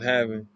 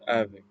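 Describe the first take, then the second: First: The word begins with a clear h sound. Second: The word begins without any h sound. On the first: "instead of saying H and having" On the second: "you would say having"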